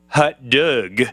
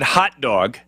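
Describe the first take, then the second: First: It is said in a French accent. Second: It is said in a plain American accent.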